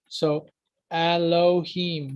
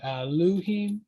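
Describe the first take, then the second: First: The middle vowel is an 'oh' sound. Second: The middle vowel is an 'oo' sound. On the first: "the O sound" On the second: "the U pronunciation"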